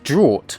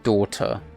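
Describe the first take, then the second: First: The word is said to sound like 'draught'. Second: The word is said to sound like 'daughter'. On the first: The speaker calls it right. "It's supposed to be pronounced as draught" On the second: The speaker calls it wrong. "I just called it a daughter"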